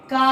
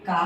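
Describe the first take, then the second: First: కా held long, "kaaa"; long vowel demo. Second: కా cut short, a quick "ka"; short vowel demo. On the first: Teacher showing pupils the sound, drawn-out కా. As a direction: stretch the vowel of కా right out. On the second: Teacher showing pupils the sound, short కా. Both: Shown as a demonstration. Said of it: "పలికేది చూడండి ఎలా పలుకుతున్నాను".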